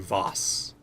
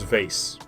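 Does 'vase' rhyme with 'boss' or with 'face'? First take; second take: boss; face. First: The vowel sounds like the one in 'boss'. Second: The vowel sounds like the one in 'face'. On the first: "I don't say Voss" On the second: "I'm the type of person who says vase"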